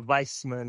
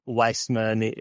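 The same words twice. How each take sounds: First: The name begins with a V sound. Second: The name begins with a W sound. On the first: This is the original German way of saying it. "It's like a V sound. Yeah, Weissman, it's right. German" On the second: This is how people in America usually say it. "I'm used to in America hearing Weissman"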